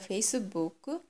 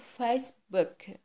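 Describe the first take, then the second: First: It is said with a Japanese accent. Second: It is said with an English accent.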